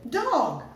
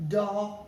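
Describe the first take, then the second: First: Dog said quick and brisk; teacher modelling the fast read; read quickly. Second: Said in the usual way. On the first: Shown as a demonstration. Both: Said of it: "Read it quickly".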